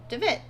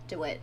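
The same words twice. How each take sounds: First: DeWitt said "de-VIT", with a v sound. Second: DeWitt said "de-WIT", with a w sound. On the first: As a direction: say DeWitt as "de-VIT", high-pitched. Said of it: "I keep calling him DeWitt". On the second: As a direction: say DeWitt as "de-WIT", like the Bioshock name. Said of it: "DeWitt from Bioshock three". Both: Real, not acted.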